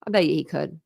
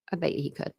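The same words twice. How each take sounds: First: Said in the usual way. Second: "I bet you he could" dropped much softer; a hushed repeat of the line; soft echo. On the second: Shown as a demonstration. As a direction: let it fall away like an afterthought to yourself.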